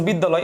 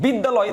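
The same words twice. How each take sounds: First: Syllable by syllable. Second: Said in the usual way. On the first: Shown as a demonstration. Teacher showing three steps, syllable by syllable. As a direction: separate the three beats of "বিদ্যালয়". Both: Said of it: "তিনটা step পেয়েছে".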